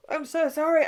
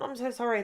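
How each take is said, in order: First: High words still mid-yawn; talking through a yawn. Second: Said in the usual way. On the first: Real, not acted. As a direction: apologise while yawning. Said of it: "I just yawned". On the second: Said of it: "That was so rude".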